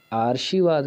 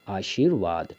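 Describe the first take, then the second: First: आशीर्वाद as aar-shi-vaad; misplaced r. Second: आशीर्वाद as aa-sheer-vaad; correct r placement. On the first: Teacher citing the error, आशीर्वाद as aarshivaad. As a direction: move the r in आशीर्वाद before sh, higher. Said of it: "आशीर्वाद नहीं होता". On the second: Teacher giving the right order, आशीर्वाद as aasheervaad. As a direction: put the r after shee in आशीर्वाद. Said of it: "उसके बाद ये रा". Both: Shown as a demonstration.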